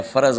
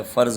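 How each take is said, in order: First: فرض as two syllables "fa-raz"; wrong pronunciation. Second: فرض as one syllable "farz"; correct pronunciation. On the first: Teacher showing the error, two-syllable "faraz" for فرض. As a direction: add a vowel after r in فرض, "faraz". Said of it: "فرض غلط ہے". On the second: Teacher correcting the error, one-syllable "farz" for فرض. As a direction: run r straight into z in فرض, "farz". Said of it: "فرض ہوتا ہے". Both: Shown as a demonstration.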